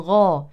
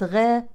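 First: The gh is thick, with the tongue back raised. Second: The gh is thin, with the tongue back lowered. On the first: The speaker calls it right. "ولكن غا" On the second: The speaker calls it wrong. "ليست غا"

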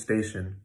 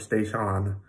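First: The second vowel is short and reduced. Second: The second vowel is full and clear. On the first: The speaker calls it right. "It's always station" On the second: The speaker calls it wrong. "it's never pronounced station or station"

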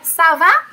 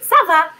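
First: The voice rises at the end like a question. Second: The voice falls at the end like an answer.

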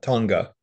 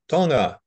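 First: It is said the way mainland Americans say it. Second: It is said the way islanders say it. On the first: The speaker calls it wrong. "not Tonga" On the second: The speaker calls it right. "So it's Tonga"

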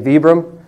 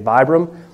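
First: The name is pronounced the Italian way. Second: The name is pronounced the American way. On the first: "the Italians say Vibram" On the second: "A lot of the Americans that we have in the company say Vibram"

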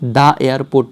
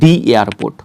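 First: The word 'the' is said as 'thuh'. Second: The word 'the' is said as 'thee'. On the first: The speaker calls it wrong. "এটার উচ্চারণ কী হবে দ্য airport না" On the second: The speaker calls it right. "এটার উচ্চারণ হবে দি airport"

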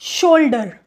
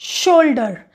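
No difference in how they are said.

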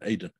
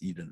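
First: The name is said the Hebrew way. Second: The name is said the English way. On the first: The speaker calls it right. "It's pronounced in Hebrew. It's pronounced Aiden" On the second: The speaker calls it wrong. "It's not pronounced Eden"

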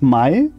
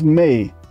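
First: The vowel is read the German way, like 'eye'. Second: The vowel is read the English way, like 'day'. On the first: "Spreche ich das jetzt Deutsch aus?" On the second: "Oder spreche ich das jetzt Englisch aus?"

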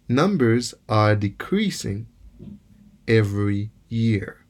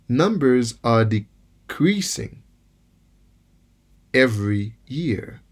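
No difference in how they are said.

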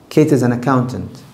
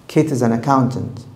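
Both takes have the same delivery.

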